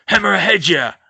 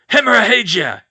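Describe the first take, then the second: First: Loud spell cry; shout. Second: Loud, high spell cry; curse shout. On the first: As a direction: hurl the curse. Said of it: "with a shout of". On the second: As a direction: slash the curse out. Villain casts again. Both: Acted.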